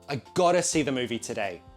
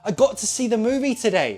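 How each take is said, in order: First: "Got to" is reduced to "gotta". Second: "Got to" is said fully, not reduced. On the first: Someone has an obligation to do it. "you probably contract it to gotta" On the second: Someone had the chance to do it. "you won't pronounce this one as gotta, gotta. No, you'll stress this word"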